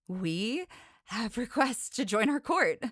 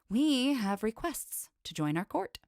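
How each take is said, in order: First: The line is read with audible excitement. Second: The line is read without excitement. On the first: "Let's do that again" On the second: "Didn't sound excited"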